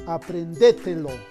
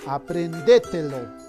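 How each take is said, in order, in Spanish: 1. El acento cae en la sílaba de. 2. El acento cae en la sílaba de.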